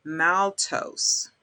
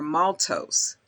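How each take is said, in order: First: First vowel of maltose as in "mal"; maltose with short a. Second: First vowel of maltose as in "malt"; maltose with open ah. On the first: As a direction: say MAL-tose, flat-A vowel as in "pal". Offers two pronunciations of maltose. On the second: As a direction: say MAWL-tose, open back vowel. Offers second pronunciation of maltose. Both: Shown as a demonstration.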